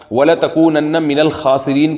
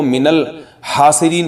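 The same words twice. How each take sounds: First: الْخَاسِرِينَ recited with a rasping throaty kh at the start; proper Quranic kh in الْخَاسِرِينَ; correct recitation. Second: الْحَاسِرِينَ recited with a breathy h, haasireen, with no rasping kh; the reciter's slip, a breathy h in الْحَاسِرِينَ; mistaken recitation. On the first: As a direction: say الْخَاسِرِينَ with the back-of-throat kh, as in khaasireen. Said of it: "کسی قاری نے غلطی سے پڑھ لیا". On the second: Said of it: "کو ... پڑھ لیا". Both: Shown as a demonstration.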